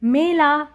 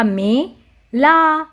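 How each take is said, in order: First: Said in the usual way. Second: "मेला" split as मे... ला; "मेला" with a gap before ला; syllable by syllable. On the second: Shown as a demonstration. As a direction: sound out "मेला" in two drawn syllables. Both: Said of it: "तो हमने पढ़ा".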